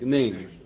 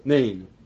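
First: The opening vowel is clipped almost away. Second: The opening vowel is clipped almost away.

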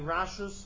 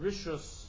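First: The first vowel is a full 'a' sound. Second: The first vowel is a short reduced schwa. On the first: "Rashus with a Patach" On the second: "Rishus with a Shva"

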